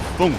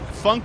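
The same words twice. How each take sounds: First: The vowel sounds like German "foonk". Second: The vowel sounds like English "funk". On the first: "funk in German would be Funk" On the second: "the Funk part I say with the English pronunciation"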